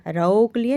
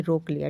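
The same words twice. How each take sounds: First: रोक said as raok with au, the wrong vowel; wrong pronunciation pointed out by teacher. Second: Said in the usual way. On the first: Shown as a demonstration. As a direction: deliberately mispronounce रोक as raok. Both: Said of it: "रोक लिया नहीं".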